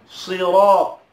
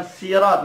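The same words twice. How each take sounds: First: SIRAT with a thick, emphatic Arabic sad; correct heavy s. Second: SIRAT with a light "sin" sound; wrong thin s. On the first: Teacher models the letter sad, heavy s. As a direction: say "Sirat" with a full, heavy first consonant. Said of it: "Bukan sirat". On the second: Teacher shows the common mistake, thin s. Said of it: "Ini bukan sin". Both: Shown as a demonstration.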